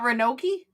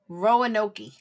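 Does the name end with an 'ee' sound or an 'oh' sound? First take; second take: ee; oh. First: The name ends with an 'ee' sound. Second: The name ends with an 'oh' sound. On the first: The speaker calls it wrong. "it's not Ranoki? ... Noki rhymes with pokey" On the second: The speaker calls it right. "I know it's poke"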